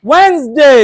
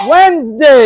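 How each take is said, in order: Both takes have the same delivery.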